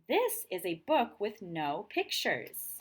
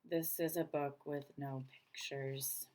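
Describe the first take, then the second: First: It is read in a lively, expressive voice. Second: It is read in a flat, dull voice.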